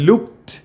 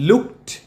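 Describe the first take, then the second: Both takes have the same delivery.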